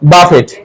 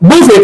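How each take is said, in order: First: The word ends with a pronounced t. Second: The word ends without a t sound. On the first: The speaker calls it wrong. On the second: The speaker calls it right.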